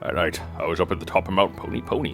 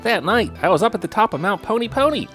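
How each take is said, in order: First: It is said in the judge character's voice. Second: It is said in Scooby-Doo's Shaggy voice.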